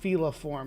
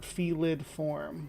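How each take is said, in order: First: It has no 'd' sound after 'feli'. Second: It has a 'd' sound after 'feli'. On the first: The speaker calls it right. "I say it's feliform" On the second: The speaker calls it wrong. "not felid form"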